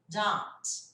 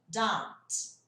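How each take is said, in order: The two takes are said the same way.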